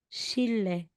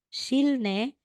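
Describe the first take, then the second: First: The middle consonants are pronounced as a double l. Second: The middle consonants are pronounced l then n. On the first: The speaker calls it right. "magiging shille" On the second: The speaker calls it wrong. "instead na sasabihin mo, yung bigkas mo dito or pagbasa mo is shilne"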